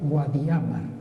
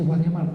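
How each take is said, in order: First: The stress falls on the second-to-last syllable. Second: The stress falls on the last syllable. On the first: This is the older pronunciation of the name. "todavía se pronunciaba, se acentuaba" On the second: This is the later pronunciation of the name. "¿Cuándo comenzó a decirse"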